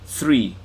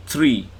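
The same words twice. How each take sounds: The two takes are said the same way.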